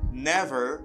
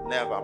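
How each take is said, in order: First: It is said in an American accent. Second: It is said in a Jamaican accent. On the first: The speaker calls it right. "it's the correct one" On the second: The speaker calls it wrong. "paske sa se on style Jamaican"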